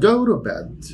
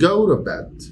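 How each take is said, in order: First: The t in 'to' is a quick flap. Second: The t in 'to' is a quick flap.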